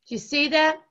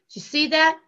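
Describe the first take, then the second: No difference in how they are said.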